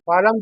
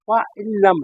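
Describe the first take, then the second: First: The n sound is dropped and merged. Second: The n sound is clearly pronounced. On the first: "नून को ड्रॉप कर देते हैं" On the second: "ये असल में पा इन लम"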